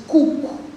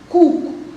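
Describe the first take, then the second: The two takes are said the same way.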